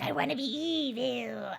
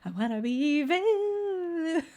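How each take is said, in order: First: It is said in the speaker's ordinary voice. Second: It is said in a put-on imitation voice. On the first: "I don't read it like that" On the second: "I always read it in [name]'s voice"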